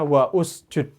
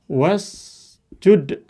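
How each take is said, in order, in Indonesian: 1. Ada vokal 'u' tersendiri yang diucapkan sebelum 'sjud'. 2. Langsung menyambung dari 'wa' ke 'sjud'. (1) "Jangan dibaca wa usjud" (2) "Jadi langsung ya"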